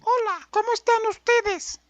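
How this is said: The voice is high and childlike.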